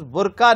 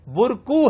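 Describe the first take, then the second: First: The word ends with an 'a' vowel. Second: The word ends with a 'u' vowel. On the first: The speaker calls it wrong. "लेकिन तलफ्फुज बुरका नहीं है" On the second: The speaker calls it right. "बुरकू है"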